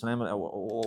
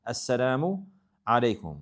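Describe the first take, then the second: First: It is said quickly with sounds dropped. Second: It is said with every sound pronounced. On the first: The speaker calls it wrong. "they just say it fast and they eat letters" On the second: The speaker calls it right. "there's a proper way to say it"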